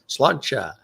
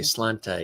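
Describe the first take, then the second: First: The word ends with a 'cha' sound. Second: The word ends with a plain 'ta' sound. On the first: The speaker calls it right. "It's slancha" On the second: The speaker calls it wrong. "I would say slanta. And they're like, that's not how you say it"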